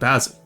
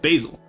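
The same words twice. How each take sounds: First: The first vowel is a short A, as in 'bat'. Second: The first vowel is a long A, as in 'bay'. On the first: The speaker calls it wrong. "If you say Basil, that's cringe" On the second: The speaker calls it right. "the first one says its own name, which is the vowel is A"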